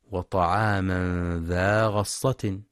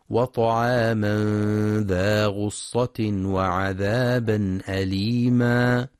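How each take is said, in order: First: Slow, غصة said ghassa with an open fatha on the ghain; wrong reading. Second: Slow chanted recitation, غصة with the ghain rounded as ghussa; Quranic recitation. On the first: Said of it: "فلا يقرأ". (قراءة خاطئة بفتح الغين في غصة) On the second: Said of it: "ينتبه القارئ في كلمة غصة لضم الغين". (تلاوة متأنية بضم الغين في غصة) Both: Shown as a demonstration.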